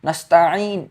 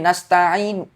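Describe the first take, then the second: The two takes are said the same way.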